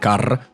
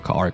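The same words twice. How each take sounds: First: Scottish accent, with a rolled R. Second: American accent, with the R clearly heard.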